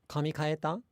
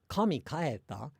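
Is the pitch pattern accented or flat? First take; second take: flat; accented. First: The pitch stays flat without a drop. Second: The pitch has an accent with a drop. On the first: It asks whether the hair was changed. The speaker calls it right. "they're both flat then" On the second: It asks whether God went home. The speaker calls it wrong. "the incorrect pronunciation would be"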